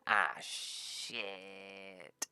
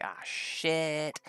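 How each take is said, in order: First: Softer, long falling mock groan; sinking dismay. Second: Higher, drawn-out mock alarm; acted dismay. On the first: Party learning the Chimera is gone, sinking dismay. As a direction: let it sag away slowly and quietly. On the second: Party learning the Chimera is gone, acted dismay. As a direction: stretch out a raised cry of dismay.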